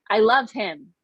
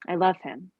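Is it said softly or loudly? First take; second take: loudly; softly. First: It is said louder, almost shouted. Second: It is said at a normal, softer volume.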